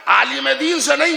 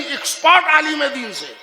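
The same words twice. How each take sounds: First: نہیں lifted with a rising tune; stress on not a scholar. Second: expert punched hard and loud, falling; stress on expert. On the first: Preacher to congregation, repeating the line with نہیں stressed. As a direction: lean on نہیں, then let it rise. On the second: Preacher to congregation, correcting himself with expert stressed. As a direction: hit expert like a hammer blow. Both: Shown as a demonstration. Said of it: "مگر پھر جملے دہرا لیجیے".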